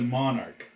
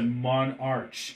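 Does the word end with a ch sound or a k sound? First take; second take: k sound; ch sound. First: The word ends with a k sound. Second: The word ends with a ch sound. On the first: The speaker calls it right. "You pronounce it monarch" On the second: The speaker calls it wrong. "you don't pronounce it monarch"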